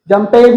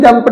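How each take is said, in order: First: The ending is said as an extra syllable. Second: The ending is a short sound, no extra syllable. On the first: The speaker calls it wrong. "जंपेड नहीं" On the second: The speaker calls it right. "जंप्ड है वो"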